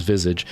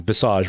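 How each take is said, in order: First: "visage" stressed on the first syllable, VIZ-ij; anglicized visage. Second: "visage" stressed on the second syllable, vi-SAHZH; French-style visage. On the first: Contrasting it for listeners, "visage" as VIZ-ij. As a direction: say "visage" with a short ending, VIZ-ij. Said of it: "visage versus visage". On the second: Recalling what angered people, "visage" as vi-SAHZH. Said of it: "I was saying visage versus visage". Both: Shown as a demonstration.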